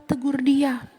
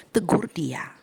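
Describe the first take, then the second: First: Said in the usual way. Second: Whispered. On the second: Shown as a demonstration. Preacher urging the congregation to rebuke in private, whispered. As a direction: say it as a private word.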